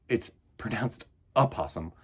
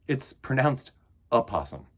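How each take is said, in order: No difference in how they are said.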